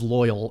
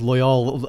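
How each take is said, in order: First: The stress is on the first syllable. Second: The stress is on the second syllable. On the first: The speaker calls it right. "like the personality attribute" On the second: The speaker calls it wrong. "with the emphasis on the second one"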